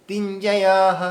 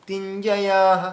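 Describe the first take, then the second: Both takes have the same delivery.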